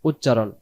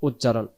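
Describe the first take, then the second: Both takes have the same delivery.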